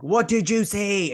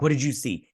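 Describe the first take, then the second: First: High, drawn-out imitation of a demanding question; exaggerated retold demand, slow and high; insistent mock demand. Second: Said in the usual way. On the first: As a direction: stretch it out, louder and much higher, hamming it up. Acted repeat of his urgent question.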